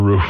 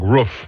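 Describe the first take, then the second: First: The vowel is long, like in proof. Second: The vowel is short, like a dog's woof. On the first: "As opposed to" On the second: "like that's sort of like uh, Dennis the Menace dog"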